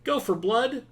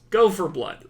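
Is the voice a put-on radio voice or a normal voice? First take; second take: radio voice; normal voice. First: It sounds like a crackly CB radio voice. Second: It sounds like the speaker's normal voice. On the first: "I said that in in kind of a like C B radio vo- voice" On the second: "Let's get back on track"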